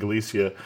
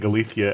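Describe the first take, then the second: First: The name is said with an English pronunciation. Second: The name is said with a Castilian Spanish pronunciation. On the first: "I'm saying Galicia, and I may not be able to change my pronunciation" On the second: "You're pronouncing it with a Castilian pronunciation, so you're saying Galicia"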